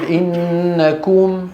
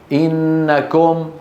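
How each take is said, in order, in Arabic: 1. تُنطق الضمة القصيرة كاملة المدة. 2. تُختصر الضمة القصيرة وتُخفَّف. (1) "أيضا الضمة أقول إنكم" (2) "ولا تقل إنكم"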